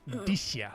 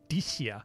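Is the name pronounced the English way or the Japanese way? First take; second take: Japanese; Japanese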